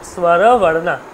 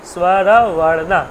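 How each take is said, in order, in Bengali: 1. শব্দটি শেষে 'o' স্বরধ্বনি দিয়ে শেষ হয়। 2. শব্দটি শেষে 'o' স্বরধ্বনি দিয়ে শেষ হয়।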